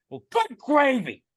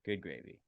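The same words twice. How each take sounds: First: Loud, high, drawn-out holler; exaggerated exasperated yell; mock angry cussing. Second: Said in the usual way. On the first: Shown as a demonstration. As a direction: belt it out like a swear. Tries it as angry substitute cuss.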